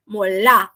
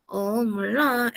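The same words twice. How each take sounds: First: Said in the usual way. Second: "Ah, molá" slow and drawn out, falling at the end; Korean drama intonation. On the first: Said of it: "Então, a gente tem o molá". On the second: Retold or imitated. Teacher imitating expressive Korean speakers, drawn-out intonation. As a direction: stretch the "Ah" and final "lá" of "Ah, molá". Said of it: "eles são muito expressivos".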